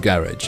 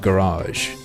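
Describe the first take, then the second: First: It is said in a British way. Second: It is said in a non-British way.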